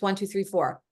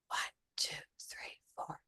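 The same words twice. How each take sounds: First: It is said in a normal voice. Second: It is said in a whisper.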